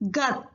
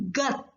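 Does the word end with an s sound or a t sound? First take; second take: t sound; t sound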